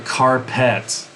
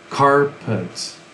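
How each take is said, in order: First: The second syllable has a full vowel like pet. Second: The second syllable is soft with a reduced vowel. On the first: The speaker calls it wrong. "It's not really carpet" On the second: The speaker calls it right. "we say the second part very sl- very very soft"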